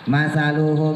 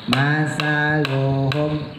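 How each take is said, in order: First: The start is abrupt and clipped to half a beat. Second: The start is smooth and held for a full beat. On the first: The speaker calls it wrong. "kalau digentak, nah itu gentak namanya" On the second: The speaker calls it right. "nah itu nggak digentak"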